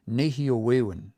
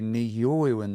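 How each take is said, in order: First: The stress falls as in the word nehio. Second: The stress falls differently from the word nehio. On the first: The speaker calls it wrong. "they're still pronouncing the stress like they hear it on this one" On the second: The speaker calls it right. "they won't say"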